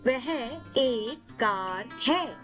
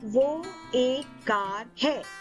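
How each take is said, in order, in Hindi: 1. पहला शब्द अपने पूरे औपचारिक रूप में बोला गया है। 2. पहला शब्द अपने छोटे बोलचाल के रूप में बोला गया है। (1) "In formal or written form of Hindi" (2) "In spoken Hindi"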